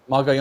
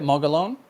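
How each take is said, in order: First: Mogollon with a Y sound, "mo-ga-YOHN", checking; corrected pronunciation. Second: Mogollon with an L sound, "mo-ga-LOAN", questioning; mistaken pronunciation. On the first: Host checks the corrected name, Mogollon pronounced as "mo-ga-yohn". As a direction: repeat Mogollon with the double L as Y. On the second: Host asks how to say the player's name, Mogollon mispronounced as "mo-ga-loan". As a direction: say Mogollon with the double L as a plain L. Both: Real, not acted. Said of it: "I was always saying it wrong".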